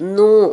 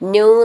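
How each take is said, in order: First: The syllable is a plain n plus long u. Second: The syllable has a y glide before u. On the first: The speaker calls it right. "നൂ എന്നാണ്" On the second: The speaker calls it wrong. "ന്യൂ എന്നല്ല"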